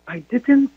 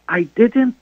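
No difference in how they are said.

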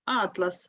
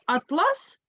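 First: Атлас stressed on the opening А, falling after; stress on first syllable. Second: Атлас stressed on the last а, rising high; stress on second syllable. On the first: Teacher naming a collection of maps, first syllable of Атлас stressed. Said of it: "наголос падає на перший склад". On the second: Teacher introducing the fabric word, stress on the second syllable of атлас. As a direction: land on ЛАС in атлас. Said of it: "Якщо на другий склад". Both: Shown as a demonstration.

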